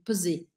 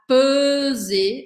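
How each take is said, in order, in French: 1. La première voyelle est brève. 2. La première voyelle est longue. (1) "on dit peser. Peser, il est court" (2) "on ne dit pas peser"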